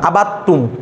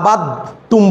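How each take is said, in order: First: The d merges fully into a doubled t. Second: The d is heard separately before the t. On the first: The speaker calls it right. "এরকম বলেন" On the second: The speaker calls it wrong. "অনেকে আবার আবাদ তুম বলে"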